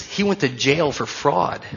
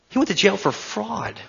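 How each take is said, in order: First: Said in the usual way. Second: Much higher, disbelieving echo; stunned repetition of a fact; incredulous repeat. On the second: Shown as a demonstration. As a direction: say it again like you can't believe it.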